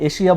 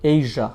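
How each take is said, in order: First: The middle consonant is an 'sh' sound. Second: The middle consonant is a 'zh' sound. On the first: The speaker calls it wrong. "এশিয়া বললে ভুল হবে" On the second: The speaker calls it right. "এটাকে বলতে হবে এইজা"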